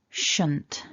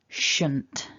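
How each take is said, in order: The two takes are said the same way.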